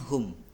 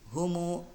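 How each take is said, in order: First: The word ends on the m sound. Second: The word ends with a long u vowel. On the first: This is the word's original form. "Asalnya hum" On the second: The vowel is added to fit the poem's metre. "didommahkan humu dan dibaca panjang"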